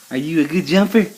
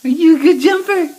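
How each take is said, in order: First: Said in the usual way. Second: High loud praise. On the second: Real, not acted. Parent praises the jumping baby, high and loud.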